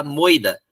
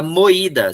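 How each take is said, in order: First: "moida" as MOI-da, oi in one syllable; "moida" rhyming with doida, no separate i; vowels glued together. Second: "moída" as mo-Í-da, punched louder; "moída" with a strong separate i; stressed hiatus. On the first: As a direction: say "moida" with the stress on the o, i gliding. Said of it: "em moída fica moida". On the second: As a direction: hit the í in "moída". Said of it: "se eu não colocar o acento". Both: Shown as a demonstration.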